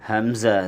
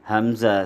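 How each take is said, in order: Both takes have the same delivery.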